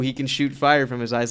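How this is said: It sounds offhand and unimpressed. It is treated as no big deal. The speaker calls it wrong. "Cool. Yeah, cool"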